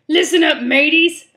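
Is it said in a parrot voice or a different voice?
different voice. It is said in a non-parrot character voice.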